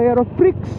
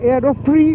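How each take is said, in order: First: The name ends with an audible x sound. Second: The name ends without an x sound.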